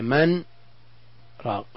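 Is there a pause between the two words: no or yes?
Yes. A short pause separates the two words. The two words stay distinct in meaning. "هل يجب السكت عند قوله من راق؟"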